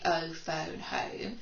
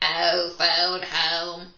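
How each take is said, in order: First: It is said in a normal voice. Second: It is said in a put-on alien voice.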